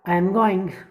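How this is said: It is said with an American English accent. The speaker calls it right. "Correctly अपने को American लेकर वो touch लेके आना"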